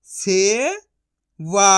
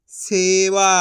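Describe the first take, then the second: First: से rising long, pause, वा; syllable by syllable. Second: Said in the usual way. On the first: Shown as a demonstration. Teacher sounding out for learners, syllable by syllable. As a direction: split सेवा into two drawn-out sounds. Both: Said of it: "तो मिलके बन जाएगा".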